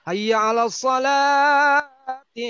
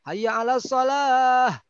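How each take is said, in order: First: The word ends with a linked 'ti' sound. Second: The word ends in a stopped 'h' sound. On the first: The speaker calls it right. "Nah gitu" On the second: The speaker calls it wrong.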